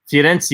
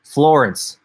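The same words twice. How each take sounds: First: Firenze said the Italian way, fee-REN-tseh; testing Firenze with an Italian sound; trying Italian. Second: Said in the usual way. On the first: Shown as a demonstration. Asking a viewer how to say the city, trying Italian. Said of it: "Is that how you say it?". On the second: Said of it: "Florence in Italian?".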